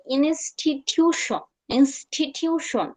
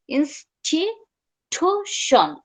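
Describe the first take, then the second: First: ইনস্টিটিউশন drawn out slowly, syllable by syllable; slow demonstration of ইনস্টিটিউশন; careful institution. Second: ইনস্টিটিউশন very slow and higher, with the ending stretched as shun; stretched English ইনস্টিটিউশন; English institution. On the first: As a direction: spell out ইনস্টিটিউশন slowly in sound. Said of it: "আমি যদি বলি". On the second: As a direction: draw out ইনস্টিটিউশন in English style. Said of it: "যখন এটা pronunciation করবেন". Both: Shown as a demonstration.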